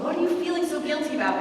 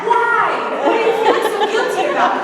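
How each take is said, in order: First: A calm, fast, kindly asked question; gentle question. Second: Loud, high, fast blurted question; loud surprised priest; startled priest. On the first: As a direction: ask it gently, as a caring priest. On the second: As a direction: jump on her with the question. Priest startles her in confession. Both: Retold or imitated.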